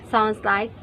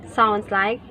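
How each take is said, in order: No difference in how they are said.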